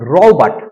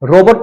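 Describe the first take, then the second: First: The second syllable has a short reduced vowel. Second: The second syllable has a full 'o' vowel. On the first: The speaker calls it right. "इसका clearly pronunciation" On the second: The speaker calls it wrong. "रोबोट नहीं"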